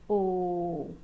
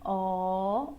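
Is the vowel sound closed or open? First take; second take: closed; open. First: The vowel is closed, with the mouth higher. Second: The vowel is open, with the mouth lower. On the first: "ou o som fechado" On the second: "também pode ter o som aberto"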